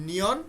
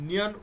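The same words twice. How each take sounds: No difference in how they are said.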